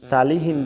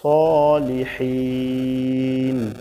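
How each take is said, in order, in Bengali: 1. এটি একটি সাধারণ, হালকা s ধ্বনি দিয়ে শুরু হয়। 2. এটি একটি ভারী, জোরালো s ধ্বনি দিয়ে শুরু হয়। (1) "সালিহিন বলা যাবে না, ... সদের জায়গায় সিন হয়ে যাবে" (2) "এখানে বলতে হবে সলিহিন"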